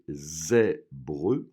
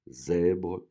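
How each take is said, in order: First: The final syllable is pronounced fully and clearly. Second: The final syllable is pronounced weakly and lightly. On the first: "j'ai fait exprès de prononcer la dernière syllabe" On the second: "normalement, elle est moins accentuée"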